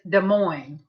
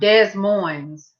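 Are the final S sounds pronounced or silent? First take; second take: silent; pronounced. First: The S sounds are silent. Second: The S sounds are pronounced. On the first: The speaker calls it right. "There's no S's" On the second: The speaker calls it wrong. "It is not"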